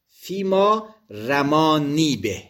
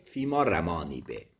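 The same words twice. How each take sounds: First: Said in the usual way. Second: Quiet low repeat. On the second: Shown as a demonstration. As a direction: say فیما رمانی به softly and lower. (فیما رمانی به را آرام و بم تکرار کن)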